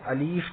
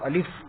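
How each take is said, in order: First: The second vowel is long, like 'ee'. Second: The second vowel is short, like 'i'. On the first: The speaker calls it wrong. "बहुत से बच्चे अलीफ पढ़ते हैं" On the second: The speaker calls it right. "तो आपको अलिफ पढ़ना है"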